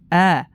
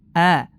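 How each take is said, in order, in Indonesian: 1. Vokalnya terbuka dan ringan, mulut terbuka lebar. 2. Vokalnya terbuka dan ringan, mulut terbuka lebar.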